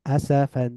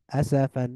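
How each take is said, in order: Both takes have the same delivery.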